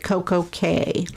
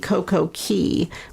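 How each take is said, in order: First: The second word rhymes with 'day'. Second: The second word rhymes with 'tea'. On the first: "Royal Caribbean pronounces it Coco Cay" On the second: "It really should be Coco Key"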